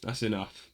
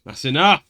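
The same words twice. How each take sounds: First: Softer, low and falling; quiet warning. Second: Louder and sharper, rising; firm loud stop. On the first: Host quietly warning his co-host off the joke. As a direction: warn him quietly first. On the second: Host cutting off his co-host's joke, louder. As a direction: put your foot down, louder. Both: Real, not acted.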